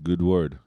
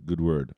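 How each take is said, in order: Both takes have the same delivery.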